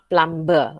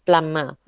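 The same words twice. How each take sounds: First: The b sound is pronounced in the middle. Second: The b sound is left out entirely. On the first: The speaker calls it wrong. "It is not plumber" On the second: The speaker calls it right. "plumber with the silent B"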